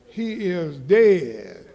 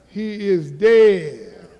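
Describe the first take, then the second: First: Slow, low, drawn-out "he is dead" with a chuckle. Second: Louder, slower "He is dead" with "dead" hit hard. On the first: Pastor to the church, a slow low first "he is dead". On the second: Pastor hammering it home, loud and slow. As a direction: punch "dead" out to the back pews. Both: Shown as a demonstration.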